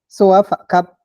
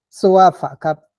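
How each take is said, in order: First: The a of soa has no falling tone. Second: The a of soa has a falling tone. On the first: The action was completed. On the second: The action is habitual.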